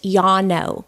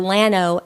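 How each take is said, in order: First: The word begins with a Y sound. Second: The word begins with an L sound. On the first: The speaker calls it right. "the two L's make it a Y" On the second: The speaker calls it wrong. "people that don't know call it Llano"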